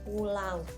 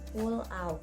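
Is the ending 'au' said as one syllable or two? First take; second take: one syllable; two syllables. First: The ending 'au' glides as one syllable. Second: The ending 'a' and 'u' form two syllables. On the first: The speaker calls it right. "Diftong itu satu suku kata, contoh pulau" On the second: The speaker calls it wrong. "bukan pulau"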